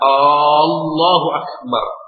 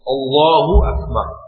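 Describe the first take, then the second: First: The phrase is said so it sounds questioning. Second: The phrase is said as a plain declaration. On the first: It doubts whether God is really great. The speaker calls it wrong. "Itu dia ragu, apakah betul Allah Maha Besar?" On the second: God is the greatest. The speaker calls it right. "Ini Allahu Akbar"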